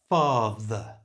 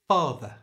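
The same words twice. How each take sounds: First: It is said slowly with a strong th. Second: It is said at normal conversational speed. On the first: "First slowly and saying the th sound strongly" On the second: "And now at normal speed"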